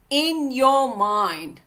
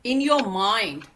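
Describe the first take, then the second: First: In your mind drawn out slowly, each word weighed; slow it right down to drive in your mind; deliberate, slowed-down in your mind; slow emphatic repeat. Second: Said in the usual way. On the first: Shown as a demonstration.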